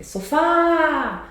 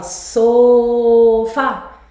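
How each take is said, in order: First: "sofá" with the final FÁ held long and high; stress on FÁ. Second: "sofá" with a long loud SO and a short FA; wrong stress on SO. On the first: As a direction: call out "sofá", stretching the FÁ. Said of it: "O mais forte é essa que se estica". ("sofá" com o FÁ forte e esticado) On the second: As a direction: misplace the stress, stretching the SO of "sofá". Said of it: "você não fala sofá". ("sofá" com o SO esticado, errado) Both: Shown as a demonstration.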